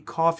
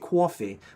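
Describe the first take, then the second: First: It is said in a general American accent. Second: It is said in a Boston accent. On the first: "You don't say coffee" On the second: "you say coffee"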